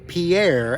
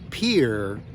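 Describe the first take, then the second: First: It uses the outsider pronunciation of the name. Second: It uses the local pronunciation of the name. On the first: This is how it was learned elsewhere. The speaker calls it wrong. "not Pierre, as I learned it as a child" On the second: This is how residents say it. The speaker calls it right. "It is pronounced by the locals Pierre"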